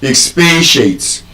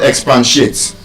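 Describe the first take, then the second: First: Expatiate said slowly as ex-PAY-shate; correct pronunciation. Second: Expatiate said as ex-PAN-shate; mispronunciation. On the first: Teacher corrects the word, careful pronunciation. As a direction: expatiate with a long PAY and no N, slow. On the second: Teacher shows what it is not, mispronunciation. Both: Shown as a demonstration. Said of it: "it's not expatiate".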